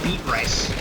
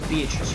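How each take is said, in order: First: It is said like the two words 'beet rice'. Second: It is said as the usual name Beatrice. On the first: The speaker calls it wrong. "It's definitely not beet rice. That just looks weird" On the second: The speaker calls it right. "It is Beatrice, right? I'm not mispronouncing that"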